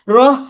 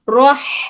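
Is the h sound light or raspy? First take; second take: light; raspy. First: The h is a light, breathy sound. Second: The h is a tight, raspy throat sound. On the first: The speaker calls it wrong. "रोह नहीं" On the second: The speaker calls it right. "हलक के बिल्कुल दरमियानी हिस्से से"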